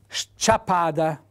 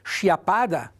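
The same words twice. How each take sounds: First: The s and c are pronounced as separate sounds. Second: The opening letters merge into a single sh sound. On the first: The speaker calls it right. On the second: The speaker calls it wrong.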